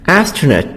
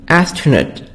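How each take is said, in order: Both takes have the same delivery.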